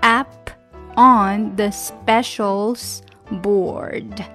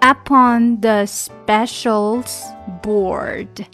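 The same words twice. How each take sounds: Both takes have the same delivery.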